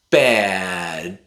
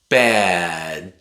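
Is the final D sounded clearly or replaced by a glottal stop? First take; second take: glottal stop; glottal stop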